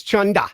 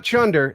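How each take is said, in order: First: Chunda with no final r, ending in an open uh; Aussie chunda. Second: Chunder with a clear final r, American style; plain chunder. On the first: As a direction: drop the r in chunda, Australian style. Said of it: "It's not chunder". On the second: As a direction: say chunder the usual way, r sounded. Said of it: "it's chunda". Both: Shown as a demonstration.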